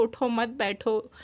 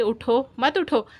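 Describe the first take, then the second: First: उठो मत joined as one phrase; no pause after उठो. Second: उठो set apart by a short stop, spoken slowly; pause after उठो. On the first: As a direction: run उठो straight into मत बैठो. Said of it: "अगर ना ठहर जाए तो". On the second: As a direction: say उठो, stop briefly, then मत उठो. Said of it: "कहना हो कि". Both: Shown as a demonstration.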